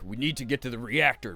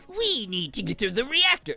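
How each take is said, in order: First: It is said in a calm, deep, steady voice. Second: It is said in a frantic, over-the-top voice. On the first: "stoic, deep voice guy. And I'll do like my first take" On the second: "just go insane off script"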